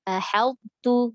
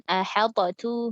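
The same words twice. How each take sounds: First: Ahaltu very slow, t merged; correct ahaltu. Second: Ahaltatu with an extra bounced ta; wrong ahaltatu. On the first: Teacher demonstrating the correct ahaltu. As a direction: say ahaltu slowly with no bounce. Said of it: "bukan ahaltatu". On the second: Teacher demonstrating the wrong ahaltatu. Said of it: "nggak gitu". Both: Shown as a demonstration.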